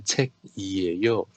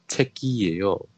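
First: Said slowly, with the syllables kept apart. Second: The final consonant runs into the next syllable. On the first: "我们一般慢慢说的话就是" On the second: "韩国人这边会把它连音连起来"

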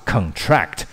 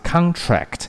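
First: The stress is on the second syllable. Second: The stress is on the first syllable. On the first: It is used as a verb meaning to shrink. "动词的话是contract" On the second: It is used as a noun meaning an agreement. "它的名词念法是contract"

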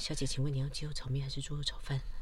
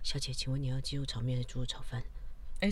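First: It is spoken very softly and sleepily. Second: It is spoken clearly at a normal volume. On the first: The speaker calls it wrong. "你是在睡觉吗？为什么他要这么小声" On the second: The speaker calls it right. "这个太清楚了"

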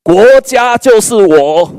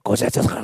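First: It is said loudly. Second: It is said very quietly.

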